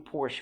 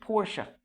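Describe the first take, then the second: First: The name ends on a consonant sound. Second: The name ends with an added vowel sound. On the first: This is the name as said in English. "بس لو انت عايز انجلش بنقول بورش برضو" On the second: This is the name as said in its original form. "المفروض بورشا. بورشا بالاسباني كده"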